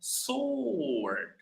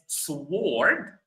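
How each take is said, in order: First: The W is silent after the S. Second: The W sound is pronounced after the S. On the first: The speaker calls it right. "but it's pronounced as sword" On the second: The speaker calls it wrong. "it's written as sword"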